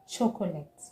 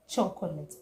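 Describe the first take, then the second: First: The word is said with an extra syllable. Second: The word is said with a syllable dropped. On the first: The speaker calls it wrong. "Here people say chocolate" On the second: The speaker calls it right. "But it is chocolate"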